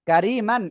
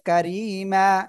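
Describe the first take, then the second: First: The word ends with an n sound. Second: The word ends on a long vowel. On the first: The word is read without stopping on it. "কারিমান এর জায়গায়" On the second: The reader stops on the word. "হবে কারিমা"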